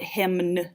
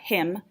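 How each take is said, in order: First: The final N sound is pronounced. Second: The final N sound is silent. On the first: The speaker calls it wrong. "we don't say that" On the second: The speaker calls it right. "We don't hear the N at hymn"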